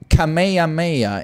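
It is pronounced the English way. "Kamehameha in English"

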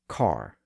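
The R after the vowel is pronounced. "rhotic accents say car"

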